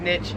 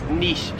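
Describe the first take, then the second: First: It is pronounced the American way. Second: It is pronounced the Australian way. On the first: "I myself have always said niche" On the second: "It is niche here in Australia"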